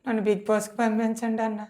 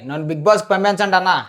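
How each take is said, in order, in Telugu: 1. ఇది నీరసంగా, దీనంగా బతిమాలుతున్నట్టు చెప్పారు. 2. ఇది కోపంగా, దూకుడుగా చెప్పారు. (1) "దీనంగా కదా ఇంత దీనంగా" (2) "కోపం ఎందుకురా?"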